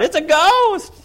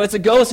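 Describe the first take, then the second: First: High-pitched, loud panicked scream of a ghost; John's scream. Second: Raised, louder, higher retelling of the shout; re-voice the ghost cry, higher; echoing the scream. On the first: John screams to the boat, high-pitched panicked shriek. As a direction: shriek it much higher and louder. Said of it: "So he's screaming out". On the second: Peter re-voices John's cry, mock alarmed. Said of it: "but a little higher". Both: Retold or imitated.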